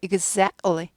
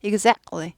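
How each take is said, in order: The two takes are said the same way.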